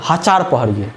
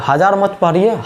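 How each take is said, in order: First: "हजार" said as ha-chaar, low; memory-trick pronunciation. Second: Said in the usual way. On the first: Shown as a demonstration. Teacher recapping what to read, low "हजार" pronounced ha-chaar. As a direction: drop lower and give "हजार" a ch for its j. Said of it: "तो इसलिए आपको बोले".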